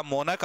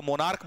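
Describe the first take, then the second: First: मोनक said as "mo-nuk", no r sound, two short syllables; मोनक as "monuk", never "monarch"; correct pronunciation. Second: मोनार्क said the way students say it, "mo-naark" with a long a and r; मोनार्क with the "naark" ending that learners use; wrong pronunciation shown. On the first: Teacher to students, showing मोनक as "monuk" with no r. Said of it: "क्या बोला जाएगा?". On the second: Teacher to students, imitating the common wrong मोनार्क. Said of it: "आप तो मोनार्क बोलते". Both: Shown as a demonstration.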